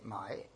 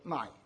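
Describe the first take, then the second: First: The tone dips low and then rises. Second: The tone falls sharply from high to low. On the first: It means to buy. "if you want to buy something, you say mai" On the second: It means to sell. "And if you want to sell it, you say"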